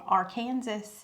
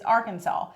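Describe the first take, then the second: First: The word is said slowly and drawn out. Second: The word is said plainly, not drawn out. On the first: The speaker calls it wrong. "I drew it out and I said it's called" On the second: The speaker calls it right. "The only acceptable way to pronounce it is"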